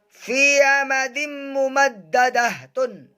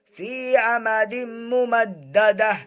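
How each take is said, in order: First: The last word ends with a 'tun' sound. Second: The last word ends with an 'h' sound. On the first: The reading continues without stopping. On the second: The reader stops at this point.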